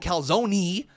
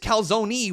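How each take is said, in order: First: The word ends with a hard E sound. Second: The word ends with a Y-like sound. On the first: The speaker calls it wrong. "I don't pronounce the E with a hard E. I don't go calzone" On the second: The speaker calls it right. "It's calzone with a Y"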